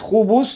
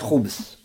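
First: The word has two syllables, with a second vowel. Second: The word has one syllable, with the vowel dropped. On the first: "Можно шейтан мужского пола говорить хубус" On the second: "можно и облегчить и сказать хубс"

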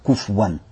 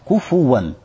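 First: No vowel follows the f sound. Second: A short u vowel follows the f sound. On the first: The speaker calls it wrong. "Ни в коем случае нельзя сказать куфуан, как некоторые читают. Это неправильно. Куфуан. То есть сукун над фа" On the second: The speaker calls it right. "С даммой, куфуан"

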